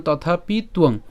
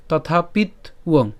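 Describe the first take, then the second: First: "তথাপি তুয়ং" with t starting the second word; joined pronunciation. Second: "তথাপিত উয়ং" slowly split after the t; fully split pronunciation. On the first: Teacher shows the joined form, "তথাপি তুয়ং" with tu together. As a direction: say "তথাপি তুয়ং" as tathapi tuong. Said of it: "একসাথে উচ্চারণ করলে". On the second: Teacher breaks it up for learners, "তথাপিত উয়ং" split slowly. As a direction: say "তথাপিত উয়ং" as tathapit, then uong. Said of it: "একদম ভেঙে উচ্চারণ করতে যান". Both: Shown as a demonstration.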